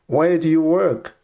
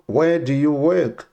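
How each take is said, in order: Both takes have the same delivery.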